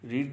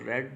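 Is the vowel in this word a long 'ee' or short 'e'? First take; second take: long ee; short e. First: The vowel is a long 'ee' sound. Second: The vowel is a short 'e' sound. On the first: The speaker calls it wrong. "Actually इसका उच्चारण रीड नहीं होता" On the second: The speaker calls it right. "इसको रेड बोला जाता है"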